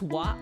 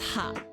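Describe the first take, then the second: First: The syllable begins with a w sound. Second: The syllable begins with an h sound. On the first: This is the reading used for it in this sentence. "this is actually like pronounced as wa for this sentence" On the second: This is the usual reading of the character. "normally this is ha"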